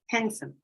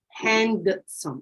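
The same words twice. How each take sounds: First: The D sound is left out. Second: The D sound is pronounced. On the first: This is casual speech. "in casual speech, we say handsome" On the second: This is formal speech. "Informal speech"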